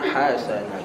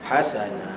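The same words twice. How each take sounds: First: The ending is stretched and drawn out. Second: The ending is kept short and clipped. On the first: The speaker calls it wrong. "kita tak nak hasana" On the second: The speaker calls it right. "kita nak hasana"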